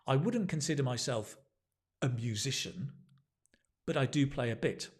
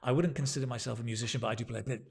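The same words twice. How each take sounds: First: There is a clear pause before 'but'. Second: It runs on without a pause before 'but'. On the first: The speaker calls it right. "You see the pause?" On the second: The speaker calls it wrong. "you don't want to say"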